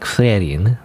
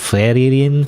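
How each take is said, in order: First: The name is said without the extra syllable. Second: The name is said with an extra syllable. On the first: The speaker calls it right. "but like Frerin, right?" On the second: The speaker calls it wrong. "I mispronounced it in the past as Frerin ... I made up like an extra syllable"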